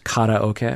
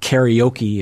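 First: It is said with a Japanese-style pronunciation. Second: It is said with an English-style pronunciation. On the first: The speaker calls it right. "it's karaoke, right?" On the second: The speaker calls it wrong. "it's not karaoke"

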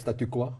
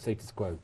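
First: The first word ends without an s sound. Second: The first word ends with an s sound. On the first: The speaker calls it wrong. "but they say, do you like statu quo?" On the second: The speaker calls it right. "No, status quo"

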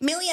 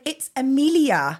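First: The first vowel of the name is dropped. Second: The first vowel of the name is pronounced. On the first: This is how Scottish speakers say it. "I kept hearing everybody say" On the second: This is the usual full form of the name. "I was like, it's Amelia"

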